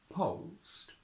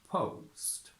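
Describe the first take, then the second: No difference in how they are said.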